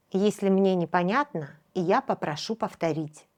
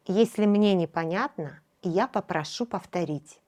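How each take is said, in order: Both takes have the same delivery.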